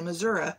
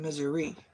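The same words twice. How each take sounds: First: The word ends with a vowel other than 'ee'. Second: The word ends with an 'ee' vowel sound. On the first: The speaker calls it wrong. "you don't say Missouri" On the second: The speaker calls it right. "It ends with an I. ... you say Missouri"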